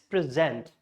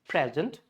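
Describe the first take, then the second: First: The stress is on the second syllable. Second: The stress is on the first syllable. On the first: It is a verb meaning to introduce. "stress should be on the second syllable" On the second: It is a noun meaning a gift. "Stress on the pre"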